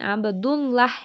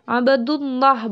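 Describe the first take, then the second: First: The lam in Allah sounds light, like A. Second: The lam in Allah sounds heavy, like O. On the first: The speaker calls it wrong. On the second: The speaker calls it right.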